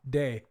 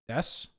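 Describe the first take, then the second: First: The word ends on a vowel without S. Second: The word ends with a clear S sound. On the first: "I'm trying to read it in French, and so I don't pronounce the S" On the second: "You you pronounce it des?"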